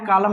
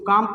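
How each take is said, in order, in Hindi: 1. L की ध्वनि बोली जाती है। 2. L की ध्वनि मौन है। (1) "कालम नहीं पढ़ना है, गलत हो जाएगा" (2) "इसको काम पढ़ना है"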